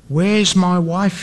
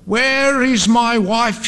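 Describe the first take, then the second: First: Mildly choked, slow question; a slow question with a touch of choking up. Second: High, drawn-out mock scream; slow, high cry of desperation, not full volume. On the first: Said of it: "he choked". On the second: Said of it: "he screamed". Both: A narrator's reading.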